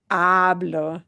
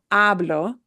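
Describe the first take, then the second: No difference in how they are said.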